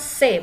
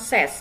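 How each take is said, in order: First: The word ends on the vowel, with no s. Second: The word ends with an audible s sound. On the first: The speaker calls it right. "Dibacanya se" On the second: The speaker calls it wrong. "bukan ses"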